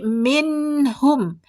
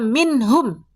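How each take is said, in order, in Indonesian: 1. Huruf m di akhir tetap ada sedikit dengung sengau. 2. Huruf m di akhir tidak ada dengung sengau. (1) "tetap ada jejak dengung" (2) "Tidak dibaca minhum"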